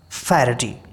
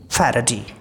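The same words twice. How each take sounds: First: It has a British accent with an aspirated p. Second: The same.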